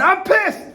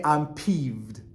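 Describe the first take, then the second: First: High, loud yell of anger; mock angry outburst. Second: Understated, deadpan annoyance; straight-faced peeved. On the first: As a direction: blow up as if furious. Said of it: "And instead of going". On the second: Shown as a demonstration. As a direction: say it keeping a straight face. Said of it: "Try to keep a straight face".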